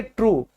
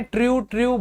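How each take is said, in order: First: ट्रू as one clean "troo", hard retroflex t; ट्रू said cleanly, the right way; correct pronunciation. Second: ट्रू mispronounced as "tri-oo"; wrong pronunciation. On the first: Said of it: "सही pronunciation सीखो सही जगह से". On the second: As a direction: say ट्रू as "triu", the common mistake. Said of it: "बिल्कुल गलत है". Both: Shown as a demonstration.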